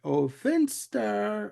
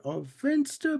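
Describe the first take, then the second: First: Slow, drawn-out doting coo, a touch higher; mock doting coo. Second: Much higher, sing-song coo on "Finster"; high doting coo. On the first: Bugs starts his baby routine on Finster, slow mock coo. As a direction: stretch "Finster" like cooing at a baby. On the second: Retold or imitated. Bugs coos at Finster again, higher mock baby talk. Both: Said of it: "he goes into the routine like".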